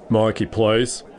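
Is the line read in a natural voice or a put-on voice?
put-on. It is read in a put-on character voice. The speaker calls it right.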